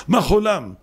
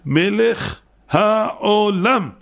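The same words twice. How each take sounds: First: Mock a sloppy reader; slurred blessing. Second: מלך העולם very slow, syllable by syllable; higher, every sound of העולם separated; precise articulation. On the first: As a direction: run the words together as מה חולם. Imitates a slurred blessing word. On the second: Shown as a demonstration. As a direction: spell out מלך העולם with painstaking care. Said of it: "בשבילו דקדק במילים".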